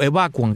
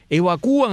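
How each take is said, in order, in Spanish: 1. El acento cae en la sílaba a. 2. El acento cae en la sílaba u.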